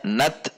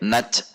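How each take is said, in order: First: The final sound stays a clear t sound. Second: The final sound drifts toward a ch sound. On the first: The speaker calls it right. "tetap di ta, tidak ke c" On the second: The speaker calls it wrong. "tidak bergerak ke c"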